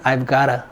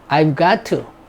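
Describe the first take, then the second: First: Got to is said fast, blended into gotta. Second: Got to is said as two clear words.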